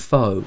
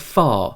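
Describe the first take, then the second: First: The vowel is rounded, like in 'foe'. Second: The vowel is open, like in 'far'. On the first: The speaker calls it wrong. "reading the letters as I see them" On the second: The speaker calls it right. "the correct pronunciation of P H O in this instance should be closer to far"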